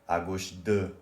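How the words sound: The final word de is strongly stressed. It sounds like the words for left two. The speaker calls it wrong. "you might say à gauche de, which sounds like left two"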